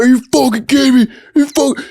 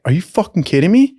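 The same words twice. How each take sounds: First: High, fast, choked-up mock rage; imitating tearful outrage. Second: Retold disbelief. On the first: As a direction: act out a big dude losing it. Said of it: "his eyes were, like, welling up". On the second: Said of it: "everybody was like".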